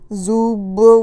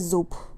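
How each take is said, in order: First: The word ends with a voiced b sound. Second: The word ends with a voiceless p sound. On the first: The speaker calls it wrong. "we don't say" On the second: The speaker calls it right. "we say zup, like p"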